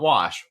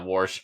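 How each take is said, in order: First: The vowel has no r sound after it. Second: The vowel is followed by an r sound. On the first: The speaker calls it wrong. "not wash" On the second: The speaker calls it right. "it is now Warsh"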